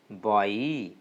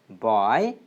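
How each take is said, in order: First: The vowel glides from one sound to another. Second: The vowel stays as one plain sound. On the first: The speaker calls it right. "but it is boy" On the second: The speaker calls it wrong. "Generally, we pronounce this word as boy, but it is not boy"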